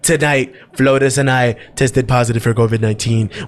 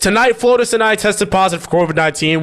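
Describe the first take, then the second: First: It is said without the right impression voice. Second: It is said in the right impression voice.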